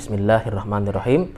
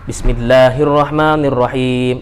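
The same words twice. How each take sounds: First: It is said quietly, barely audible. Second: It is said aloud and clearly audible. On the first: It follows the Hanbali practice of reciting the basmalah silently. "membaca basmalah dengan sir" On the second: It follows the Shafi'i practice of reciting the basmalah audibly. "jahar gitu ya, selalu terdengar"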